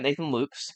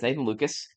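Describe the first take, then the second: First: The surname is said with one syllable. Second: The surname is said with two syllables. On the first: This is how the name looks when written. The speaker calls it wrong. "Looks like Nathan Lukes" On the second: This is how the name is actually said. The speaker calls it right. "but it's Nathan Lucas"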